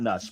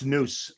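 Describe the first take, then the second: First: The vowel is a short 'u' sound. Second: The vowel is a long 'oo' sound. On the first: The speaker calls it wrong. "not nuss" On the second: The speaker calls it right. "I think it's noose, like Hangman's noose"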